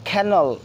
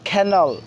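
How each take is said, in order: First: The first k sound has a puff of air. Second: The same.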